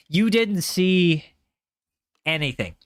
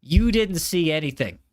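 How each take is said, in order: First: Stretched out, slow and deliberate; slow mock-serious you-didn't-see-that; slow drawn-out denial. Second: Said in the usual way. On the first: Shown as a demonstration. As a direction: drag each word out slowly. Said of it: "repeats slowly, drawn out". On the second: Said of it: "telling viewers to ignore a fail".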